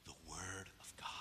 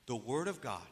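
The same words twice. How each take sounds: First: A breathless, voiceless whisper. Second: Said in the usual way. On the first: Acted. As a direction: let it out as a hushed secret. Answers own question, hushed.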